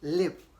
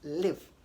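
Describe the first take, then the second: First: The vowel is short, as in 'live'. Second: The vowel is short, as in 'live'.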